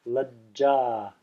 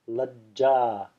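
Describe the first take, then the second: No difference in how they are said.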